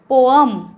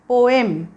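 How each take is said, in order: First: The two vowels are run together. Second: The two vowels are kept clearly separate. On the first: The speaker calls it wrong. "असलं काहीतरी नाही करायचं आहे" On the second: The speaker calls it right. "बरोबर उच्चार काय आहे, पो ए म"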